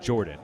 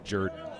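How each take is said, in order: First: The first syllable sounds like 'jor'. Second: The first syllable sounds like 'jur'. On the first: The usual pronunciation of the name. The speaker calls it right. "I'm going to assume his name is pronounced Jordan" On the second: The local pronunciation used for the stadium. The speaker calls it wrong. "not Jordan"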